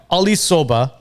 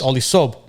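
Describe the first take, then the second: First: Soba in two syllables, SO-buh; corrected name Soba, ending on a vowel. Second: Clipped-off name Sob, no "ah" after it; insisting on SOB. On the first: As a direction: say Soba with an "uh" after the b. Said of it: "But it's pronounced Soba". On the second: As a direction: Sob as one syllable, ending on the b. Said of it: "No, no, no, it's Ali Sob". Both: Shown as a demonstration.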